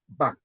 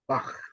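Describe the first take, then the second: First: The word ends with a hard k sound. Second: The word ends with a throaty ch sound. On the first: This is the usual English way. "in English, we say Bach" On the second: This is the original way. "I'm just saying it's a Bach"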